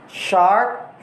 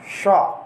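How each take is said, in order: First: Said in the usual way. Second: "sharp" with open vowel, no R; British "sharp", vowel in place of R; British dropped R. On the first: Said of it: "R is sometimes replaced". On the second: Shown as a demonstration. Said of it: "replaced by a vowel sound".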